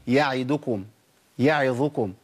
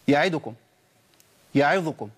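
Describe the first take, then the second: First: The short vowels are given their full length. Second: The short vowels are clipped and rushed. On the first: The speaker calls it right. "طب هي اصلا ايه؟" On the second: The speaker calls it wrong. "الخطا ان انا اختلس من زمن الحركات"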